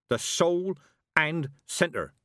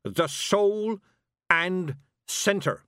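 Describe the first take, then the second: First: "soul and centre" slow and higher, each word weighted; emphatic, drawn-out "soul and centre"; hammered-out words. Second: "soul", pause, "and centre", each pitched high; high, forceful "soul" then a separate "and centre"; hammered-out words. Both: Acted. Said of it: "hammering out her words".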